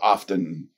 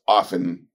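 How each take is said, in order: First: The t sound is pronounced. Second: The t sound is silent. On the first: "often with the T is also correct" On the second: "Without the T"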